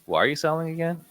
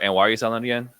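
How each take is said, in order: First: It sounds genuinely curious and caring. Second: It sounds flat, like reading a script.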